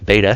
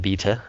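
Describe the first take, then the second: First: It is said in an American accent. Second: It is said in a non-American accent.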